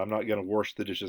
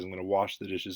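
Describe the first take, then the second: First: "wash" said with an R, like "warsh"; dialect "warsh". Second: Said in the usual way. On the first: Shown as a demonstration. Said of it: "warsh or whatever, you know, these, uh, pronunciations". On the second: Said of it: "you sound like, you know, you're educated".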